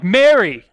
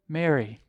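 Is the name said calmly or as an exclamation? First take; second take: exclamation; calmly. First: The name is said as an excited exclamation. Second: The name is said calmly and plainly.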